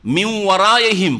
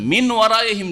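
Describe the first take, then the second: First: মিন ওয়ারাইহিম with the n turned into a held nasal w; মিন ওয়ারাইহিম said as "miw-waraihim"; partial nasal merging. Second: মিন ওয়ারাইহিম with a clear n before the w; মিন ওয়ারাইহিম, n and w kept separate; unmerged n. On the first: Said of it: "নাকে টান দিয়ে পড়ছেন". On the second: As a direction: sound the n fully in মিন ওয়ারাইহিম. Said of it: "মিন ওয়ারাইহিম ছিল". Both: Shown as a demonstration.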